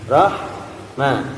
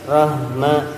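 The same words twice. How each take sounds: First: The h is a smooth breathy hiss of air. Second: The h carries a vibration from the chest. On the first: The speaker calls it right. "ini ada desiran angin juga" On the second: The speaker calls it wrong. "Jangan ada getaran di dada"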